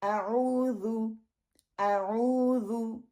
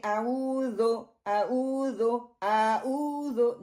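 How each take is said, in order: First: आऊज़ु slowly with a rounded "zu" at the end; the right way to recite आऊज़ु; correct zu. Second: आऊज़ो ending on a broad "zo" instead of "zu"; the mistaken आऊज़ो a student should avoid; wrong open vowel. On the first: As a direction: model आऊज़ु cleanly and slowly. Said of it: "ये wrong हैं". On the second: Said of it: "अब इसको ये ना करें". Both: Shown as a demonstration.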